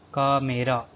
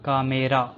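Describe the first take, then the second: No difference in how they are said.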